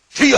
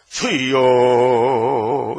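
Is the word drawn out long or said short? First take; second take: short; long. First: The word is said short and clipped. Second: The word is drawn out long.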